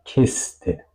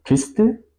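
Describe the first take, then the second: First: Kiste said slowly with the I as taught; slow, careful kiste with separated syllables; corrected vowel. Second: Kiste mispronounced with the wrong I length; wrong vowel length. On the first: Teacher says how it should be, corrected vowel. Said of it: "digo kiste". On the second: Teacher shows what not to say, wrong vowel. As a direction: kiste as the faulty take, rising at the end. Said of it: "no digo kiste". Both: Shown as a demonstration.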